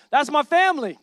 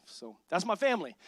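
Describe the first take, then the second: First: Family called out louder; proud call to the crowd; louder repeat. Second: Said in the usual way. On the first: Real, not acted. Pastor hyping the church family, louder. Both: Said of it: "Give it up for my family".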